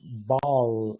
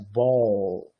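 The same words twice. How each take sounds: First: The final L is clear, tongue tip forward. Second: The final L is dark, tongue back raised. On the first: The speaker calls it wrong. "você não diz ball" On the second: The speaker calls it right. "É ball"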